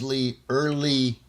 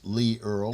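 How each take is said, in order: First: The surname is said with two syllables. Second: The surname is said with one syllable. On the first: The speaker calls it wrong. "My name gets pronounced as Lee Early quite often" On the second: The speaker calls it right. "I have to explain it's Lee Earl"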